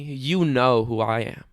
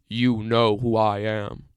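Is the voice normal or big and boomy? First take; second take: normal; big boomy. First: It is said in a normal voice. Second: It is said in a big, boomy voice.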